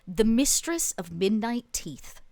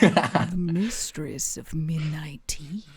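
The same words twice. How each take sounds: First: It is said at a normal pace. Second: It is said slowly.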